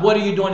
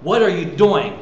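First: Mildly frustrated question; understated exasperated demand. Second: Mildly excited, eager question; a touch of excitement about what comes next. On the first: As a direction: ask it with a touch of frustration. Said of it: "what are you doing in frustration". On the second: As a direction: ask it with keen anticipation. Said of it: "but excitement of". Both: Shown as a demonstration.

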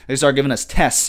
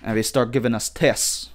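First: Said in the usual way. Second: Badly faked British accent; a tentative stab at sounding British; amateur mock-British delivery; attempted British accent. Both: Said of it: "I can't do the accent".

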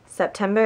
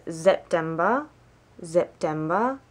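First: Said in the usual way. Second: September with a Z sound at the start; German month name. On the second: Shown as a demonstration. Learner teaching viewers the months, German pronunciation. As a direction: say September as "zep-TEM-ba", rising at the end. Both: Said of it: "to do the months".

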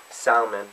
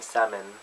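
First: Salmon said with the l sounded, "sal-mon"; salmon, l pronounced clearly. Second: Salmon said "sam-on", silent l; salmon with the l left silent; salmon without l. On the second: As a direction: drop the l in salmon. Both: Shown as a demonstration. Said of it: "I sometimes say sam".

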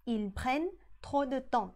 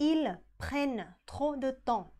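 First: Said in the usual way. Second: Ils prennent trop de temps, very slow; slow model sentence. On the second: Shown as a demonstration. (อ่าน ils prennent trop de temps ช้าๆ) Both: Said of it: "รูปสุดท้ายที่ผ่านก็คือ".

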